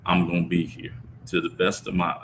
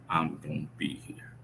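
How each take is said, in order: First: Said in the usual way. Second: Hushed, breathy whisper of the promise; a soft whispered promise to himself. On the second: Real, not acted. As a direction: say it under your breath as a vow. Repeats promise, then whispers it.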